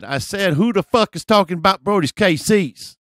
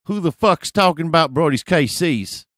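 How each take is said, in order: First: Louder, higher insistent repeat; mock belligerent shout; confrontational guy impression. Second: Loud, raised-pitch challenge; confrontational guy impression. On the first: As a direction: demand it as the tough guy, pitched way up. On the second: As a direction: imitate a tough guy calling someone out. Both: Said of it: "do my best impression of this guy".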